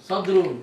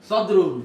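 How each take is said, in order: No difference in how they are said.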